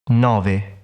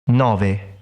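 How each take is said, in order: Both takes have the same delivery.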